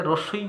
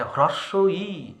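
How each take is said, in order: First: "রস্বই" as one quick casual word; casual everyday pronunciation. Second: Deliberate textbook "হ্রস্ব ই"; careful full pronunciation. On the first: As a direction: say "রস্বই" run together, without the opening হ. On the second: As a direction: say "হ্রস্ব ই" as two separate words with a long drawn final ই. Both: Shown as a demonstration. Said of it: "আমরা যেটাকে রস্বই বলে চালাই".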